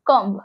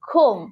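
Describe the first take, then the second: First: A b sound is heard at the end. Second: No b sound is heard at the end. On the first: The speaker calls it wrong. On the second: The speaker calls it right.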